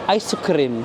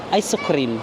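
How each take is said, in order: Both takes have the same delivery.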